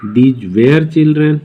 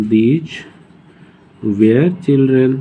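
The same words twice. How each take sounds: First: Slow dictation. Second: Put-on these were children drawn out word by word; very slow repeat. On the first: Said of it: "ऐसे ही past में". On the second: Teacher repeats these were children slowly for students. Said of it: "अरे हाँ". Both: Shown as a demonstration.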